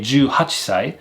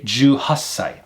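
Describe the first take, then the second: First: The chi sound is kept before sai. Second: The chi is dropped and the s lengthened. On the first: The speaker calls it wrong. "I would not say juhachisai" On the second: The speaker calls it right. "I would say juhassai"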